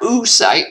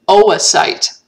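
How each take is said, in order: First: The two O vowels merge into one sound. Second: The two O vowels are pronounced separately. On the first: The speaker calls it wrong. "It's not oocyte" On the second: The speaker calls it right. "we pronounce both O's"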